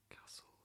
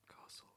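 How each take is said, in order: The two takes are said the same way.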